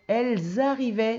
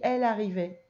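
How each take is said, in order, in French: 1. Une liaison en z relie les deux mots. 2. Aucune liaison en z ne relie les deux mots. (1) "Tu fais la liaison entre elles et arrivaient" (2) "il n'y a pas de liaison"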